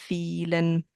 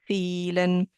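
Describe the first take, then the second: The two takes are said the same way.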